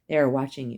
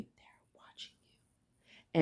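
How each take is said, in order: First: Said in the usual way. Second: Hushed, breathy whisper; whispered warning. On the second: Shown as a demonstration. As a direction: drop to a secret whisper.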